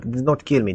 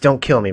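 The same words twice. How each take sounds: First: It is said with a slight Russian accent. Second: It is said with no foreign accent.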